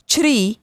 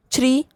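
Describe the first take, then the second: First: छ्री with a held, dipping ee; छ्री said as long "chhreee"; long vowel. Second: छ्री with a short i, rising; छ्री said as quick "chhri"; short vowel. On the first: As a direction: stretch the ee in छ्री. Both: Shown as a demonstration. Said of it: "बारह खड़ी के format में".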